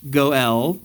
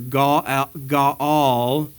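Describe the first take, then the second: First: The first vowel is a rounded 'oh'. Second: The first vowel is an open 'ah'. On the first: This is the customary English form. "in English they always pronounce it as Goel" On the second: This is the original Hebrew form. "in Hebrew"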